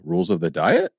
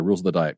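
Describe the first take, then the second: First: It rises at the end like a question. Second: It is read flat, with no rise.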